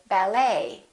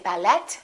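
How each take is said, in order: First: The final T sound is silent. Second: The final T sound is pronounced. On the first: The speaker calls it right. "we say" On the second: The speaker calls it wrong. "We don't say"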